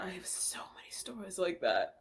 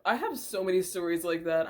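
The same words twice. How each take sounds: First: Softly whispered aside; breathy whispered repeat. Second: Said in the usual way. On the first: Shown as a demonstration. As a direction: whisper it like a secret. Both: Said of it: "repeated whispered".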